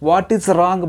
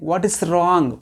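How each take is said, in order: First: The words 'what is' are said separately. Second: The same.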